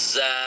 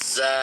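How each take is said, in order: Both takes have the same delivery.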